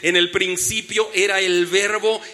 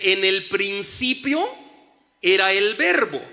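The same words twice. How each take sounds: First: It is read at normal speed. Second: It is read slowly.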